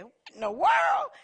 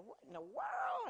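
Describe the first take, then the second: First: Much higher, loud exclamation; startled shout. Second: Surprised gasp. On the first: Denise startled by her name on the radio, shouting in surprise. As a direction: blurt it out in shock. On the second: Laura reacting to radio. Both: Retold or imitated.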